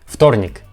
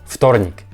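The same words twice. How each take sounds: No difference in how they are said.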